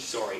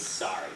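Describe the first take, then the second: First: "sorry" with a rounded oh: SOH-ree; Canadian "sorry". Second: "sorry" with an open ah: SAH-ree; American "sorry". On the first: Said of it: "their big one is sorry". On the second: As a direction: say "sorry" as if spelt sarry. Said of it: "They say S A R R Y". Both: Shown as a demonstration.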